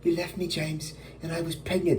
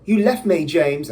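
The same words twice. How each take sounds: First: Higher-pitched acted reproach in own accent; higher, dramatized accusation without the British accent. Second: Higher, louder acted British accent; hammed-up British reproach. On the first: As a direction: play a wronged lover confronting him. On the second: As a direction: play a wronged British woman. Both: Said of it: "I don't know why I made her British".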